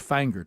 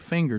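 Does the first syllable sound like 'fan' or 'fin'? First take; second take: fan; fin. First: The first vowel sounds like the one in 'fan'. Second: The first vowel sounds like the one in 'fin'. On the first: The speaker calls it right. "It's Fanger" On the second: The speaker calls it wrong. "you don't say Finger"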